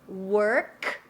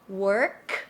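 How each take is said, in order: No difference in how they are said.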